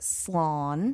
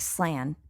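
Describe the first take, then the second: First: The vowel is a long aw sound. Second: The vowel is a short flat a. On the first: The speaker calls it right. "Makes it slawn" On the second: The speaker calls it wrong. "keeps it from sounding like slan"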